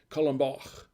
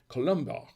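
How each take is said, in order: First: It is said with a full French accent. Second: It is said with a plain English accent.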